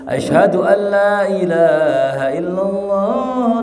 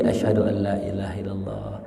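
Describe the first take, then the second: First: It is said aloud in a full, raised voice. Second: It is said softly, barely above a murmur. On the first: It is proclaimed for everyone to hear. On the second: Only the caller and those nearby hear it.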